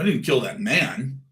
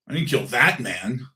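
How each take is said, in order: First: The word man carries the emphasis. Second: The word that carries the emphasis. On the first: A woman may have been killed. "where's your wife?" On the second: Someone else was killed. "I might have killed somebody, but not that one, not that guy"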